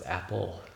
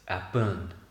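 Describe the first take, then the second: First: The word ends with an l sound. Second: The word ends with an n sound. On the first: The speaker calls it right. "No, it's apple" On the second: The speaker calls it wrong. "It's apun. That's that's the right way to say it"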